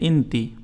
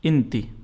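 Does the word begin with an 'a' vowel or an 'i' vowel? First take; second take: i vowel; i vowel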